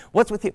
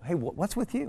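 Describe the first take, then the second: First: Much higher and louder sneer; angry mocking echo. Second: Wife asking. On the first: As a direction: throw her words back at her. Mocking her question, angry. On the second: Retold or imitated. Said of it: "and she goes".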